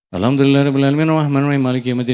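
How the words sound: The verses run together in one breath. The speaker calls it wrong. "Al-Fatihah satu napas"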